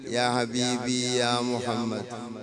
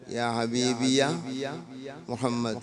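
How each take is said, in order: First: The syllable before Muhammad is drawn out long. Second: The syllable before Muhammad is kept short.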